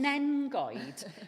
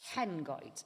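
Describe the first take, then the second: First: The name begins with an n sound. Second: The name begins with an h sound. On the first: The speaker calls it wrong. "the kids over there call it Cefn Nengoed" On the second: The speaker calls it right. "this is H"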